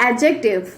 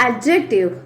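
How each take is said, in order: The two takes are said the same way.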